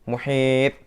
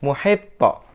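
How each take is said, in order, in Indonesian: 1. Konsonan akhirnya berhenti datar tanpa gema. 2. Konsonan akhirnya memantul dengan gema. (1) "Yang salah muhit" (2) "maka bacanya harus muhito"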